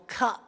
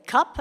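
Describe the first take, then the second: First: It is said slowly and carefully enunciated. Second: It is said at normal speed.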